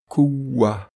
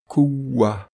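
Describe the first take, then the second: First: The word is said in its shortened pausal form. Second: The word is said in its shortened pausal form.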